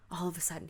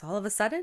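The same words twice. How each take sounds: First: Said in the usual way. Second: ALL OF A SUDDEN rising louder into a question; teacher's querying "all of a sudden?", higher at the end; questioning echo. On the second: A narrator's reading. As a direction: ask "all of a sudden?" with pitch climbing on SUDDEN. Teacher questions, kids confirm it.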